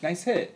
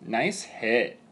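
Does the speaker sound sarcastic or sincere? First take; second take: sincere; sarcastic. First: It is said in a plain, sincere tone. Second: It is said in a sarcastic, passive-aggressive tone. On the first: The hit is praised. "if you wrote it down, it's nice hit" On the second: The hit was actually poor. "It's all in the tone"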